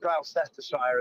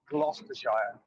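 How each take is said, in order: First: It is said with an American pronunciation. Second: It is said with a British pronunciation.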